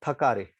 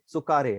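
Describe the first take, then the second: First: "थकारे" with an aspirated Hindi th at the start; Hindi-style thakare. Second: "चुकारे" begins with a clipped ts, tsu-ka-re; Japanese tsukare. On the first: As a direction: say "थकारे" like the Hindi word for tired, th-a-ka-re. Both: Shown as a demonstration. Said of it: "ऐसे थकारे नहीं है".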